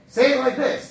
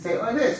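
First: The phrase is said in a loud voice. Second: The phrase is said in a quiet voice. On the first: "who told you this is loud?"

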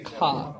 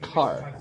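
First: The word is said with the final r dropped. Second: The word is said with the final r sounded.

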